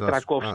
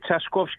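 First: The name starts with a 'tr' sound. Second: The name starts with a 'ts' sound. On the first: The speaker calls it wrong. "όχι Τρακόφσκι" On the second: The speaker calls it right. "είναι Τσασκόφσκι"

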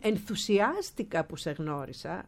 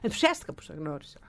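First: Every syllable is articulated clearly and fully. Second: Syllables and endings are swallowed through a tight mouth. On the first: The speaker calls it right. "Αντί να πούν" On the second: The speaker calls it wrong. "Τρώει συλλαβές, τρώει λέξεις, τρώει καταλήξεις"

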